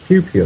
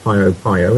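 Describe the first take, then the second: First: Each half is said as one syllable, pew. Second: Each half is said with two syllables, pee-oh. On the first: The speaker calls it right. "it's Pew Pew" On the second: The speaker calls it wrong. "not Pio Pio"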